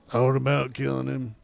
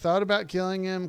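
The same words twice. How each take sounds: First: It is read in a put-on character voice. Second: It is read in the speaker's own normal voice.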